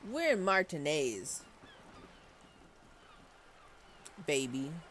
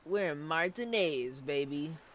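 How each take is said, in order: First: It is said unsurely, pausing before baby. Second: It is said boldly, without hesitating before baby. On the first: The speaker calls it wrong. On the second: The speaker calls it right. "She should say it more like"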